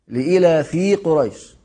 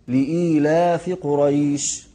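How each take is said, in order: First: The word breaks apart, sounding like two separate words. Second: The word flows as one, with a long vowel. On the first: The speaker calls it wrong. "كثير من الناس ينطقونها خطأ هكذا" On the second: The speaker calls it right. "هذا الصحيح"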